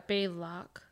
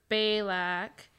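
First: "Balak" said BAY-lock; pronunciation variant. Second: "Balak" said BAY-lack; pronunciation variant. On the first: Co-host offering another try at "Balak", as BAY-lock. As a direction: say "Balak" with the second syllable like "lock". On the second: Co-host unsure of the name, trying "Balak" as BAY-lack. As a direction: say "Balak" with the second syllable like "lack". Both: Shown as a demonstration. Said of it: "I don't know if it was".

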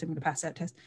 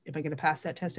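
First: Quiet, sure affirmation; confident self-talk. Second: A quiet, unsure wondering; doubtful self-question. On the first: Coaching the listener, a quiet confident affirmation. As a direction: tell yourself calmly you will pass. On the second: Coaching the listener, a quiet doubtful question. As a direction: ask yourself nervously whether you'll pass. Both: Shown as a demonstration. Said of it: "look at it like that".

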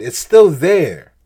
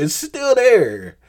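First: Slow, loud, weight on STILL in "It's still there"; emphatic. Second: Slow, much higher and louder, "still" and "there" both drawn out; emphatic, higher. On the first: Preacher to listeners about hidden hurts, slow loud emphasis. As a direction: lean hard on "still" and let "there" fall. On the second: Preacher to listeners about hidden hurts, slow high pleading emphasis. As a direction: repeat it higher, pleading for them to hear. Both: Real, not acted.

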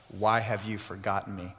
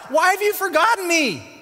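First: Hushed lament. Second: High, loud anguished cry; calling out to God. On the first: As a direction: put the question quietly to God, low. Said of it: "And David said to God". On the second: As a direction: cry it out to heaven. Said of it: "he's calling out to God". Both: Acted.

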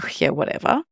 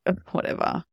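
First: Bored, offhand "whatever"; disinterested brush-off. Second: Hissed, scornful "whatever"; rude snarl. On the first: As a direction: shrug it off like you couldn't care less. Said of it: "kind of disinterested". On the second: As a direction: spit it out rudely under your breath. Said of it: "a rude snarl or a dismissive tone". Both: Pretend.

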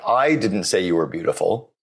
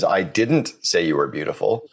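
First: The word I lifted and pressed; stress on I. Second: Didn't pushed up and leaned on; stress on didn't. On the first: Host demonstrating stress on the first word. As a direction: hit I, let the rest fall away. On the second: Host demonstrating stress on didn't. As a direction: punch didn't, rest light. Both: Shown as a demonstration. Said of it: "put the emphasis on each of the six words".

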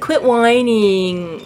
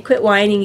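First: Slow scolding. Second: Said in the usual way. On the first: Retold or imitated. Harry telling tired Bob to stop complaining, slow and drawn out. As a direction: drag out Quit whining slowly and evenly.

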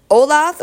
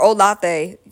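First: "Olathe" slowly, as OH-lath; Olathe without final vowel. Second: "Olathe" slowly, as oh-LAH-thay; Olathe with final vowel. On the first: Host unsure of a Kansas city, "Olathe" as OH-lath. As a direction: say "Olathe" ending on a plain "th". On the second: Host offering the other option, "Olathe" as oh-LAH-thay. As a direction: say "Olathe" with a sounded last syllable, "thay". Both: Shown as a demonstration. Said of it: "so I can pronounce your city".

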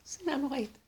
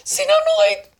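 First: Said in the usual way. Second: High, loud acted cry; hateful outburst. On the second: Teacher voicing terrible hatred, high loud outburst. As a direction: blurt it out at full pitch and volume. Acting out hatred, then repeating it.

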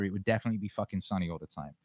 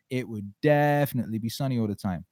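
First: Said in the usual way. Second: "definitely" punched and stretched; stress on "definitely". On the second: Real, not acted. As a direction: lean hard on the first syllable of "definitely". Repeated with emphasis on definitely.

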